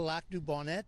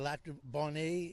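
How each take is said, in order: First: The name is pronounced the English way. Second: The name is pronounced the French way. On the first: "is English" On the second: "is French"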